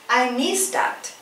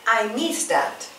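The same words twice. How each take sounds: The two takes are said the same way.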